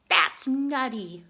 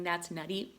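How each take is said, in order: First: Loud, slow goofy squirrel; hammed-up squirrel punchline. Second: Said in the usual way. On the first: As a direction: drag out the joke playfully.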